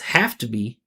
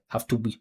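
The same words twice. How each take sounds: First: One syllable stands out clearly over the others. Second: All three syllables sound equally stressed. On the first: The speaker calls it right. "it's obvious that which one is the uh, the verb" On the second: The speaker calls it wrong. "listen to how similar the syllables are"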